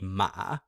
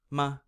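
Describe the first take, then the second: First: The pitch dips low and rises back up. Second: It is short and light with no pitch movement. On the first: "beginning kind of middle to low, falling down, and then rising back up again" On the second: "it's the absence of a tone"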